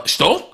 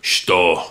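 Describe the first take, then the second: First: "Shto" high with rising tune; confused, questioning "Shto?"; puzzled question. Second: Low, terse Russian "shto"; short falling grunt of a question; curt Russian thug. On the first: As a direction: lift "Shto" into a baffled question. Igor baffled by the reply. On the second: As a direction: drop it low like an unimpressed mobster. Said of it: "he just looks at me in Russian and just goes". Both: Acted.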